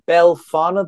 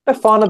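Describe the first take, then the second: First: An L sound comes before the F. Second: No L sound comes before the F. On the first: The speaker calls it wrong. "I put this down as originally Belfana the Witch" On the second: The speaker calls it right. "it is Befana the Witch. No L"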